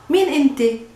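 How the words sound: It is said in Palestinian dialect, 'meen'.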